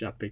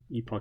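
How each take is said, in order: First: The word has an American pronunciation. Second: The word has a British pronunciation. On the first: "epoch I think is American English" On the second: "Epoch I think is British"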